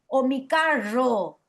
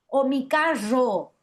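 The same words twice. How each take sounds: Both takes have the same delivery.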